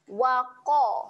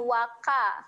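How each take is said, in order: First: The qa sound is thick and heavy. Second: The qa sound is thin and light. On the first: The speaker calls it right. "Tebal kan bunyi huruf qaf tu" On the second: The speaker calls it wrong. "bukan waqa"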